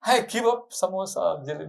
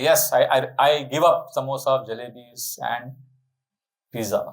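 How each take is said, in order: First: Mock difficult renunciation. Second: Easy renunciation. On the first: Devotee tempted by hot pizza, mock reluctant pledge. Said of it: "then will I be able to say". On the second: Acted. Devotee agreeing to give up snacks, easy pledge. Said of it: "It's easy for me to say that".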